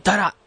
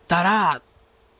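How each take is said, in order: First: Said in the usual way. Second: だらー with the final ら held long; drawn-out ending. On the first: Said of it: "普通は". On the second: Shown as a demonstration. Radio host demonstrating Mikawa dialect, final vowel of だらー drawn out. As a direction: stretch out the last vowel of だらー. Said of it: "語尾を伸ばして使います".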